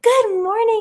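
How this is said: It is said in an excited, lively way.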